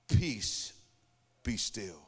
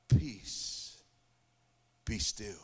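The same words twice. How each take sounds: First: Low, hushed calming command; calm voice of Jesus. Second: Low, hushed command, sinking on be still; calm voice of Jesus. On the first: Jesus speaking to the storm, low and hushed. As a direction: gently still the storm, dropping lower on be still. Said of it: "Jesus spoke three words". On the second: Jesus answering the one who prayed, low and hushed. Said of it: "he says". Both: Retold or imitated.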